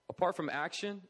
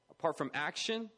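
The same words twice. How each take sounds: The two takes are said the same way.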